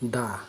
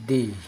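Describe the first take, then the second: First: The word ends in an 'uh' sound. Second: The word ends in an 'ee' sound. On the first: It comes before a consonant sound. "কনসোনেন্টের পূর্বে দা" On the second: It comes before a vowel sound. "ভাওয়ালের পূর্বে দি উচ্চারণ করতে হবে"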